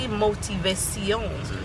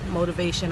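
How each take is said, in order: First: It is said with a Spanish-style accent. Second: It is said with a plain English accent.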